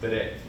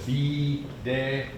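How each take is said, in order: First: The word is run together as one syllable. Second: The word is split into two separate syllables. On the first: The speaker calls it right. "It's one syllable. It's just bede" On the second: The speaker calls it wrong. "Don't try to be de"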